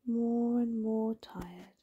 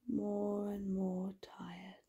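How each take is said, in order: First: Slow, drawn-out words at usual volume; slow and drowsy. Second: Slow, soft, sleepy murmur; fading drowsily. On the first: Narrator lulling a child towards sleep, slow and drowsy. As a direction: stretch out each word sleepily. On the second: Narrator lulling a child towards sleep, fading drowsily. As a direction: sink softer, as if nodding off. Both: A narrator's reading. Repeated line winding down to sleep.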